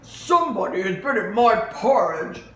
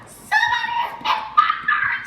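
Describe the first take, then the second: First: It is said in Papa Bear's voice. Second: It is said in Baby Bear's voice.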